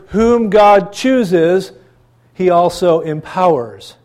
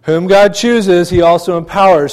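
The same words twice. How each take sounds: First: Very slow, weighing each word; slow and deliberate, stressing God; slow emphasis. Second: Louder, stressing God and empowers; preacher repeating the point with louder force; firm emphasis. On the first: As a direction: let whom God chooses land slowly. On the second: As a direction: drive the repeat home firmly. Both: Shown as a demonstration. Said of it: "I want that to sink in".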